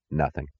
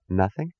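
First: "Nothing" said low and soft as a final answer; flat statement. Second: "Nothing" with a rising questioning tune; questioning echo. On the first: Eddie reporting to Dagny, "Nothing" as a subdued statement. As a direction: let "Nothing" drop quietly, closing the matter. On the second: Dagny querying Eddie's answer, "Nothing" as a rising question. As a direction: lift the end of "Nothing" to query it. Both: A narrator's reading.

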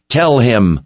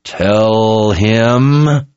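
First: Higher, firm order; mildly yelled command, cut short; restrained yell. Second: Drawn-out, higher growl; growled order. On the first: Kara demands answers from the captured man, restrained yell. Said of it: "she yelled at the man". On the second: Kara presses the captive for answers, drawn-out growl. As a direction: growl it, stretching the words out. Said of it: "she growled". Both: A narrator's reading.

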